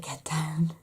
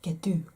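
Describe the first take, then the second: First: The word 'down' is said in full. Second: The final part of 'down' is dropped. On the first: This is what the child means to say. The speaker calls it right. "I know she's trying to say get down" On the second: A small child is saying it. The speaker calls it wrong. "It comes out more like get do"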